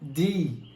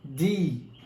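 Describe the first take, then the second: No difference in how they are said.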